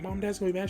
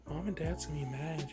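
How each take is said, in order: First: It sounds uplifting and hopeful. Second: It sounds sultry and seductive.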